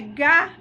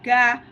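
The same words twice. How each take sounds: First: The syllable is said on a high tone. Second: The syllable is said on a mid tone. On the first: It is a polite way to say going to the toilet. "Primeiro é gá, mi" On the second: It means tall. "Segundo, gá, ré"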